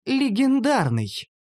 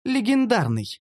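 First: High, drawn-out, savoured word; self-satisfied slow elf; smugly pleased. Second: Higher female character voice; high, simple answer; elf answering. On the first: A narrator's reading. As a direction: repeat it slowly with relish. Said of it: "довольно повторила эльфийка". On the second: Acted. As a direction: announce it in a raised pitch. First answer, later repeated smugly.

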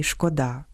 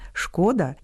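First: ШкодА́, stress on ДА; stress on last syllable. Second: ШКО́да, stress on ШКО; stress on first syllable. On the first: (наголос на останньому складі: шкода́) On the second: (наголос на першому складі: шко́да) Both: Shown as a demonstration. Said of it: "має варіантний наголос".

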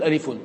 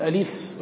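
First: ألف with -un added, alifun; case-vowel ending. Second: ألف ending on a bare f, alif; vowelless ending. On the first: Teacher showing the reading to avoid, case ending added. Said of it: "ولا نقول ألف". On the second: Teacher showing how letter names are read, vowelless ending. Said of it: "كما نقول ألف ولا نقول ألف". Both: Shown as a demonstration.

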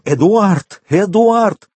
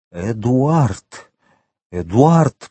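First: High-pitched cry for a missing son; desperate wail. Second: Restrained, halting call of the name; faltering babble. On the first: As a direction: call out the name in rising alarm. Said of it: "с воплем". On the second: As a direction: call him with a tongue that barely obeys. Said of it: "пролепетал он". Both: A narrator's reading.

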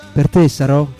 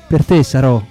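Both takes have the same delivery.

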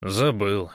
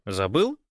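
First: "Забыл" with a falling end; "Забыл" as a conceding statement; admitting. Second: "Забыл?" with a rising end; "Забыл?" as an upturned question. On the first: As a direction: admit "Забыл" simply, pitch dropping. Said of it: "признался Гош". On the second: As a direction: ask "Забыл?" as a reminder, pitch lifting. Friend asks in disbelief. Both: A narrator's reading.

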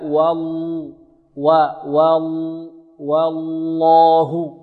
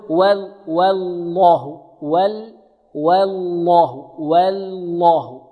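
First: Very slow والله, thin wa then thick doubled l; light waw, heavy lam. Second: Slow والله as "wel-lah", first lam light; thin both waw and first lam of والله; wrongly thin lam. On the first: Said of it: "نرقق الواو". (ترقيق الواو وتفخيم اللامين في والله) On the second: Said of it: "يرقق الواو فيرقق معها اللام الأولى". (ترقيق الواو واللام الأولى في والله) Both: Shown as a demonstration.

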